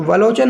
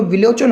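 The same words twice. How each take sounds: First: वलोचन with 'va' at the start; literal misreading. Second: विलोचन with 'vi' at the start; correct reading. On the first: Teacher rejects the literal spelling, वलोचन with 'va'. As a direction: read वलोचन with 'a' first. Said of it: "वलोचन नहीं होता". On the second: Teacher gives learners the real word, विलोचन with 'vi'. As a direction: say विलोचन, short 'i' first. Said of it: "तो विलोचन होता है". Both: Shown as a demonstration.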